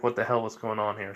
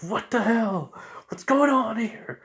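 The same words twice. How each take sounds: First: Said in the usual way. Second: Startled shout, pitched way up; in-character outburst. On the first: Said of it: "he's saying, like". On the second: Acted. Narrator acting out Zabuza caught in wires, startled outburst. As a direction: blurt it high and loud, baffled. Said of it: "Sorry, I'm just getting to the character a little".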